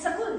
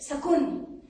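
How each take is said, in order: First: The word ends with an l sound. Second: The word ends with an n sound.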